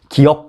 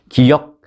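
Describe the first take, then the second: First: The second syllable has a plain eo vowel. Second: The second syllable has a glided yeo vowel. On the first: The speaker calls it wrong. "이 아니라" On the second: The speaker calls it right. "입니다"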